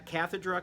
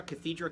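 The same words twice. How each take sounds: First: "cathedra" said KATH-uh-druh, stressed at the start; "cathedra" as CATH-uh-druh; first-syllable stress. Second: "cathedra" said kuh-THEE-druh, stressed in the middle; second-syllable stress. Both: Shown as a demonstration. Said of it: "depending on how you want to pronounce it".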